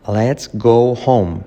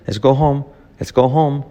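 First: Slow, drawn-out LET'S GO HOME; slow model take. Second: Fast, run-together LET'S GO HOME; quick natural take. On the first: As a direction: stretch each word of "Let's go home" for learners. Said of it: "Pero mirado rápido es así". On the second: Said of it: "mirado rápido es así". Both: Shown as a demonstration.

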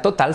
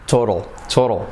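First: "total" with a hard middle T; Spanish-style TOTAL. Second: "total" with the middle T as a tapped R and dark L; American TOTAL. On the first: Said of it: "no será total". ("total" a la española, con T clara) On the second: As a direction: say "total" like "TOH-rol". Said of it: "no será total, sino". ("total" como "tórol") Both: Shown as a demonstration.

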